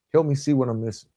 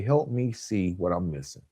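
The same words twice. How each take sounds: First: Said in the usual way. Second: Gentle request. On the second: Shown as a demonstration. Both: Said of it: "I've started learning to say".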